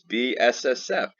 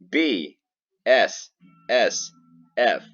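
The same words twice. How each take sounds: First: The letters are said quickly. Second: The letters are said slowly.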